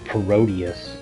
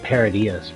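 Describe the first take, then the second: First: The word does not begin like 'parody'. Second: The word begins like 'parody' followed by 'us'. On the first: Others say it this way. "what you guys call Parodius" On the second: The speaker says it this way. "It's parody us"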